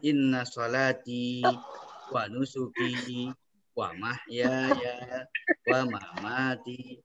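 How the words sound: Each 'wa' joins smoothly onto the following word. The speaker calls it right. "Kita baca di depan wawunya"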